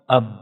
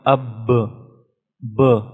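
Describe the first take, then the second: First: The final b is cut off in a stop. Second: The final b ends with a short bounce. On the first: "we stop on the letter. So, it become ab" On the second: "But due to the sifat qalqala, it become ab"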